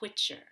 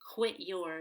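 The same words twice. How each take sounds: First: The word 'your' is reduced and linked. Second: The word 'your' is said in full.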